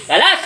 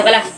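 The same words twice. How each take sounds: First: High, rising one-word order; forceful command. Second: Said in the usual way. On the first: Real, not acted. Healer commands the affliction to release, high and forceful. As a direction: order it sharply, pitched up.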